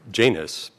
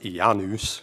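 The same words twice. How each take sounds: First: The name is said with an English pronunciation. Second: The name is said with a Latin-style pronunciation. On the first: "pronouncing it that way ... an anglicization" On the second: "I guess it should be pronounced Janus"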